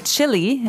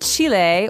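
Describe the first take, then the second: First: Chile is pronounced the common American way. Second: Chile is pronounced in a non-American way.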